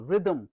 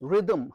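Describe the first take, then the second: No difference in how they are said.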